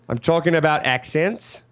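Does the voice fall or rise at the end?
rises. The voice rises at the end, Australian-style.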